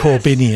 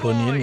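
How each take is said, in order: First: The second syllable has an 'i' vowel. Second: The second syllable has a 'u' vowel. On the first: This is how the name is really said. The speaker calls it right. "Corbinian, not" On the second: This is how the text-to-speech voice said it. The speaker calls it wrong. "which is what my uh, T T S said"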